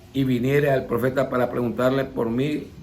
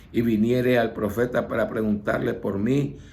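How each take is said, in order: No difference in how they are said.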